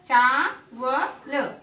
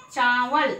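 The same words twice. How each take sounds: First: चावल very slowly, split into चा, व, ल; sounded out. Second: Said in the usual way. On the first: Shown as a demonstration. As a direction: hold चा long, then व and ल separately. (चावल के अक्षर अलग-अलग, चा लंबा) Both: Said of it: "उसको हम लंबा बोलेंगे".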